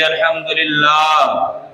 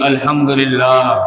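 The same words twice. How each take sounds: First: It is said with a warm, loving voice. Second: It is said in a plain, ordinary voice.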